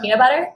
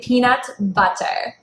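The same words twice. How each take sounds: First: The t sounds are softened and reduced. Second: Every t sound is crisply pronounced.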